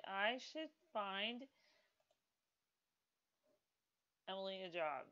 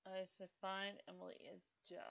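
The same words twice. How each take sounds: First: Slow drawn out. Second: Quick. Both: Shown as a demonstration.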